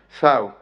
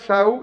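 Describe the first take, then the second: First: The word begins with a th sound. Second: The word begins with an s sound. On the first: "y con la articulación ceseante" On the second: "que alterna con ese inicial"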